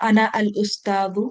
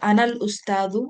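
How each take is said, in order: First: Ana and al are said as separate words. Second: Ana and al are merged into one sound. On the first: The speaker calls it wrong. "আমরা এভাবে বলবো না" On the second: The speaker calls it right. "আমরা এটাকে মার্জ করে বলবো"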